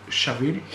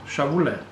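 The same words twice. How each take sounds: First: Shavil with a French accent, sha-VEER; French pronunciation. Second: Shavule said as sha-VU-le, copying the correction; corrected pronunciation. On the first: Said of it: "I will pronounce it French". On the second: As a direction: repeat Shavule as three syllables, sha-VU-le. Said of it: "not correct the way you say that". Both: Shown as a demonstration.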